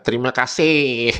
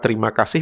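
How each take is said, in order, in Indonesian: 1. Ini diucapkan dengan meniru lafal Malaysia. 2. Ini diucapkan dengan lafal Indonesia yang biasa. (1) "Di Maledes ... mereka baca terima kasih" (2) "kata terima kasih"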